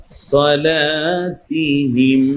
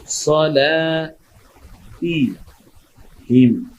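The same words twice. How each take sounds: First: সলাতিহিম joined in one slow breath, long lā; মিলিয়ে টেনে পড়া. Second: সলাতিহিম very slow, split sa-lā, tī, him with pauses; ভেঙে ভেঙে পড়া. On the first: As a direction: chant সলাতিহিম unbroken, stretching লা. (সলাতিহিম একটানে সুর করে) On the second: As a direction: sound out সলাতিহিম piece by piece, long লা. (সলা, তি, হিম থেমে থেমে) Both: Shown as a demonstration. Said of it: "লামে এক আলিফ টানছি কেন?".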